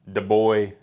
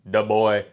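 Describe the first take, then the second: No difference in how they are said.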